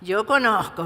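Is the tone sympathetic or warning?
warning. It sounds stern and warning. I know you are not telling the truth. "como una advertencia"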